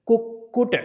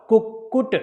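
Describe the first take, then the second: The two takes are said the same way.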